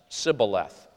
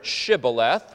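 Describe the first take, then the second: First: The word begins with a plain 's' sound. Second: The word begins with an 'sh' sound. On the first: The speaker comes from west of the river. "could only pronounce it with a simple S" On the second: The speaker comes from east of the river. "were able to pronounce this word"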